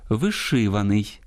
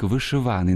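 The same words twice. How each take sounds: First: Вишиваний slowly, stressed on -ши-; correct stress shown. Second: Вишиваний stressed on -ва-; shifted poetic stress. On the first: Host models the literary norm, stress on -ши- in вишиваний. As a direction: draw out -ши- in вишиваний. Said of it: "я зараз правильно читаю". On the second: Host quotes Малишко's verse, stress shifted to -ва- in вишиваний. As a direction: hit -ва- in вишиваний. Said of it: "зміщення наголосу там допускається". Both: Shown as a demonstration.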